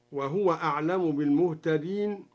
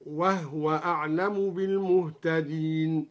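First: Said in the usual way. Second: "وهو" with no vowel on the haa, wahwa; silent-vowel haa. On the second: Shown as a demonstration. Sheikh demonstrates al-Duri's reading, "وهو" said wahwa with vowelless haa. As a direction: recite slowly, closing "وهو" on a still haa. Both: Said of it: "قرأ بإسكان الهاء هكذا".

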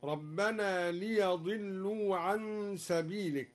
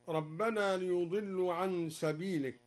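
First: ليضلوا with open ya, liyadillu; fatha on the ya. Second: Said in the usual way. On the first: Shown as a demonstration. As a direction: recite ليضلوا with fatha on ya, slowly. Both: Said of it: "قرأ الدوري بفتح الياء هكذا".

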